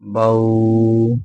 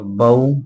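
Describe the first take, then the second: First: The vowel glide is drawn out or jerked. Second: The vowel glide is short and soft. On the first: The speaker calls it wrong. "कुछ पढ़ने वाले इसको पढ़ते हैं ... ये सरासर गलत है" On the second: The speaker calls it right. "बगैर खींचे ... नरमी के साथ मारूफ पढ़ना है"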